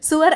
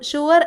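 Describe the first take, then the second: First: The word begins with an 's' sound. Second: The word begins with an 'sh' sound. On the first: The speaker calls it wrong. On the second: The speaker calls it right.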